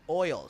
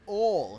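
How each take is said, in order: First: It is said with a standard US accent. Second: It is said with a Southern US accent. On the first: The speaker calls it right. "Say it right" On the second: The speaker calls it wrong. "I think he was from like North Carolina"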